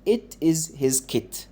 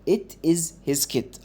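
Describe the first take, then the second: No difference in how they are said.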